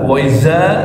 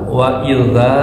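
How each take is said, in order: First: The word has a buzzing z sound. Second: The word has a soft th sound. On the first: The speaker calls it wrong. "kalau pakai zai" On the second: The speaker calls it right. "pakai zal"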